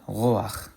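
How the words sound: It ends in a guttural ch sound.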